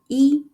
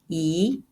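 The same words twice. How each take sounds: First: It is said in the high level first tone. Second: It is said in the rising second tone. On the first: The word is used by itself. "As the first tone" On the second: The next word has a fourth tone. "一 is reading the second tone"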